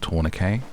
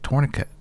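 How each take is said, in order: First: It is said with a British pronunciation. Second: It is said with an American pronunciation. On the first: "the word is tourniquet" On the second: "for Americans you'll be saying it's tourniquet"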